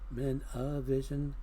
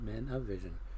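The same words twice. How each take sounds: First: The phrase is said at a normal pace. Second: The phrase is said quickly, run together.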